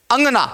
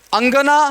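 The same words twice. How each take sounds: First: अंगना in two beats with nasalised first vowel: ãg-naa; chandrabindu pronunciation. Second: अंगना in three beats, full ng then a clear ga: ang-ga-naa; anusvara pronunciation. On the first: Teacher contrasting two words for students, अंगना with nasalised vowel. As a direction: run अंगना together lightly through the nose, falling. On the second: Teacher contrasting two words for students, अंगना with full anusvara. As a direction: sound the ng fully in अंगना, ending raised. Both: Shown as a demonstration. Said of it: "उच्चारण भी अलग".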